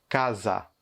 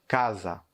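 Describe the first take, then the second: The two takes are said the same way.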